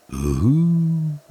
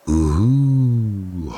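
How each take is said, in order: First: High hooting wind howl. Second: Howling wind. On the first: Wind howling through dark trees, high hoot. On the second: Wind howling again through dark trees, a lighter hoot. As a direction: howl lightly like night wind. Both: Acted. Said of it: "heult der Wind".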